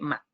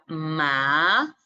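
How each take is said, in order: First: The pitch is short with no movement. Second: The pitch rises upward. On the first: "Es sin movimiento, es seco" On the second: "ascendente creciente, que uno va como subiendo el tono"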